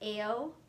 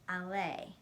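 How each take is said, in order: First: The name rhymes with the word sail. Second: The name does not rhyme with sail. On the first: The speaker calls it wrong. "rhymes with sail. This is how people who don't know her usually say her nickname" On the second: The speaker calls it right. "It's actually pronounced Ale"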